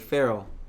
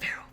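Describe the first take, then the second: First: It is said in a normal full voice. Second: It is said in a hushed whisper. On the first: The speaker calls it wrong. "No, no, she wasn't even" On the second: The speaker calls it right. "She was like whispering"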